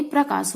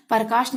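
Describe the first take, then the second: First: Said in the usual way. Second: प्रकाश said "parkaash", A before the R; split cluster. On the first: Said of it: "प्रकाश होता". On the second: Shown as a demonstration. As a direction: open प्रकाश with "par". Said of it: "नहीं प्रकाश होता".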